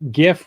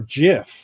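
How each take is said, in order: First: The word begins with a hard G sound. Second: The word begins with a J sound. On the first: "with a hard G" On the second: "with a J sound, like the peanut butter brand"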